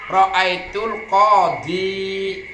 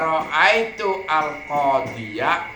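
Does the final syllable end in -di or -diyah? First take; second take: -di; -diyah. First: The final ya is silent with no vowel. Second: The final ya is voiced with an a vowel. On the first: Some Arabs read it this way. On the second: This is the standard reading. "harus dibaca fathah ya-nya"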